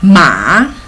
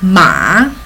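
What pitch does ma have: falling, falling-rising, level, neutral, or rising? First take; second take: falling-rising; falling-rising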